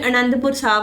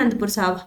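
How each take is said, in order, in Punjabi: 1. ਨਾਮ ਆਪਣੇ ਪਹਿਲੇ ਸਵਰ ਨਾਲ ਬੋਲਿਆ ਜਾਂਦਾ ਹੈ। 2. ਨਾਮ ਆਪਣੇ ਪਹਿਲੇ ਸਵਰ ਤੋਂ ਬਿਨਾਂ ਬੋਲਿਆ ਜਾਂਦਾ ਹੈ।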